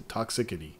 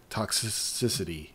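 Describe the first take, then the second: First: Toxicity said quicker, with a clear k sound; quick retry. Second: Toxicity said slowly, syllable by syllable; careful pronunciation. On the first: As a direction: redo toxicity as tok-si-ki-ty. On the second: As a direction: sound out Toxicity slowly and softly. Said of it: "less toxicity". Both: Shown as a demonstration.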